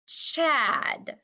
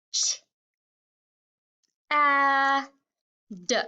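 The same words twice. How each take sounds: First: "Chad" drawn out as one syllable; blended word. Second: "Ch, a, d" as three isolated sounds; short "Ch", long level "a", short "d"; sounded out. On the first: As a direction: blend the sounds slowly into "Chad". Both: Shown as a demonstration. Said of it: "changing the last sound".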